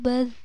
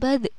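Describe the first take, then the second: First: The final consonant ends plainly, without bouncing. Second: The final consonant ends with a bouncing echo. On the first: The speaker calls it right. "cuman seperti itu" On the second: The speaker calls it wrong. "tidak dipantulkan badh, bukan seperti itu"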